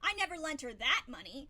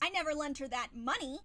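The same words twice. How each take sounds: First: The stress falls on the word that. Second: The stress falls on the word money. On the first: Different money was lent. "meaning I lent her money, but not the money that you're talking about" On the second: Something other than money was lent. "I could have lent her something, but not money"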